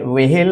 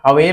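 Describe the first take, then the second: First: An h sound comes after the v. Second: A half h comes before the v. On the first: The speaker calls it wrong. "वेहेल नहीं होता" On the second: The speaker calls it right. "हवेल होता है, आधा हा वेल होता है, ये ठीक है"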